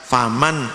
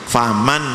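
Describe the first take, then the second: Both takes have the same delivery.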